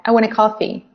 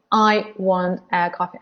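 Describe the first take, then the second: First: "I" and "a" reduced, linked onto "want"; weak forms. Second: "I" and "a" said in full; each word of "I want a coffee" kept separate; strong forms. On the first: Teacher models natural connected speech, weak forms. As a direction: run "I want a" together, weight on "coffee". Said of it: "so we don't stress them". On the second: Teacher contrasts full words with linked speech, strong forms. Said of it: "I and a are weak forms". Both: Shown as a demonstration.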